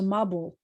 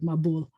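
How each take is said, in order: First: The stress is on the first syllable. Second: The stress is on the last syllable. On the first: This is the Yiddish pronunciation. "In Yiddish, the accent's going to shift toward the beginning of the word" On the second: This is the modern Israeli pronunciation. "in modern Israeli pronunciation, it's going to be at the end of the word"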